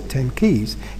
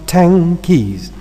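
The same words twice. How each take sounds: First: Ten ends with an alveolar n sound. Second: Ten ends with a velar ng sound.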